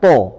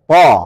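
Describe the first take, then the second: First: The vowel is a rounded o sound. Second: The vowel is an open a sound. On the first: The speaker calls it wrong. "Jadi bukan to" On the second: The speaker calls it right. "kalau fathah agak melebar sedikit"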